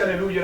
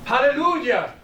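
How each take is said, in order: First: Said in the usual way. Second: "¡Aleluya!" rises high and lands with a falling, exultant finish; joyful hallelujah. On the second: Shown as a demonstration. Preacher showing the word that everyone understands, exultant "¡Aleluya!". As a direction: call out "¡Aleluya!" as a shout of praise. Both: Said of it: "usted va a China, Japón, y usted dice".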